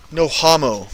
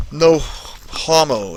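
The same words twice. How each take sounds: First: Said in the usual way. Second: Soft, slow teasing drawl; slow drawn-out mock tone. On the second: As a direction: stretch "No homo" out slowly and softly. Repeating the chat line, drawn out.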